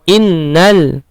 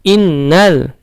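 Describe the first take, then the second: Both takes have the same delivery.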